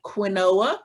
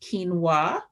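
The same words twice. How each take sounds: First: Quinoa said as spelled, "kwih-NO-uh"; pronounced as spelled. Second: Quinoa said "KEEN-wah"; quinoa with a long ee and no o, "keen-wah"; correct pronunciation. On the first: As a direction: sound out quinoa in three syllables, kwi-NO-a. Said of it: "looks like quinoa, but it's pronounced". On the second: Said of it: "but it's pronounced quinoa". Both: Shown as a demonstration.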